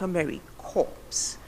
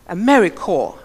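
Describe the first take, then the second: First: The last word ends with a 'ps' sound. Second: The last word ends in a plain 'r' sound. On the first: The speaker calls it wrong. "and not a merry corpse" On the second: The speaker calls it right. "is core, a merry core"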